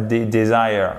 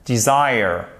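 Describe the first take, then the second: First: The first vowel sounds like French 'é'. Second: The first vowel is a short 'i'. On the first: The speaker calls it wrong. "Pas dé desire. Non" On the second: The speaker calls it right. "le E, il est prononcé comme un I court"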